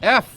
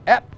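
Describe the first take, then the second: First: The letter name ends with an 'f' sound. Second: The letter name ends with a 'p' sound. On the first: The speaker calls it right. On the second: The speaker calls it wrong. "অ্যাপ কি?"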